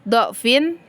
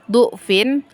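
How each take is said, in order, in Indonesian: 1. Vokal pertama adalah bunyi 'a'. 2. Vokal pertama adalah bunyi 'u'. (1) "fathah atau dhammahnya dhad" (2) "bisa dibaca dhammah dengan dhufin"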